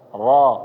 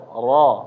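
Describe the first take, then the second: First: The R sound is heavy and full. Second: The R sound is heavy and full.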